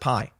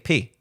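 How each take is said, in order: First: The word ends with an 'eye' vowel. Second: The word ends with an 'ee' vowel. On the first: This is how English speakers say the letter. "why do we pronounce it pi?" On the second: This is how Greek speakers say the letter. "Even the Greeks say P"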